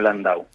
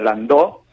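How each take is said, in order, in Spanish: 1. El nombre termina en sonido 'ow'. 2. El nombre termina en sonido 'o' simple. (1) "sino Landau" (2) "seguro que no es no se pronuncia Landó"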